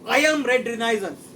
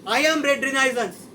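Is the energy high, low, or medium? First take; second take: low; medium. First: It is said with ordinary energy. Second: It is said with more energy.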